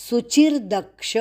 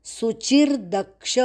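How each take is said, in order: Both takes have the same delivery.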